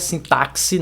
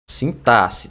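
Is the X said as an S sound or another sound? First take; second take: other sound; S. First: The X is not said as an S. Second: The X is said as an S. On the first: The speaker calls it wrong. "Sintaxe não é sintaxe" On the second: The speaker calls it right. "é como se fosse com dois S"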